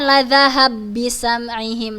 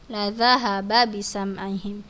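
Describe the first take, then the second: First: The two b sounds merge into one. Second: Both b sounds are pronounced clearly and separately. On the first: The speaker calls it wrong. "Jadi bukan" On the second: The speaker calls it right. "Bacanya biasa ya"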